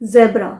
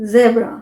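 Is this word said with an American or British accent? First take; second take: British; British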